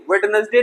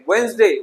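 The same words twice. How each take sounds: First: वेडनेसडे with the first D sounded; three syllables, वेड-नेस-डे in वेडनेसडे; wrong pronunciation. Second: वेडनेसडे said as वेन्सडे, silent D; two syllables, वेन्स-डे for वेडनेसडे; correct pronunciation. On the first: (गलत उच्चारण, वेडनेसडे में "ड" बोलकर) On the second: (सही उच्चारण, वेडनेसडे को "वेन्सडे") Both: Shown as a demonstration. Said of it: "वेडनेसडे नहीं".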